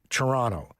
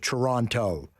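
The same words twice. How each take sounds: First: The second T is softened or dropped. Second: The second T is clearly pronounced. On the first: This is how people in Canada say it. "people in Canada kind of soften it up a little bit" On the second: This is how people outside Canada say it. "you pronounce the second T"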